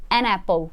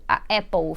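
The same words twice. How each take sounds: First: "an apple" with the n linked into "apple"; correct article. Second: "a apple", bare a then a break before "apple"; wrong article. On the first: Teacher showing the correct article before a vowel. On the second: Teacher showing how the wrong article sounds odd. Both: Shown as a demonstration. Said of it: "Ele soa até errado e estranho".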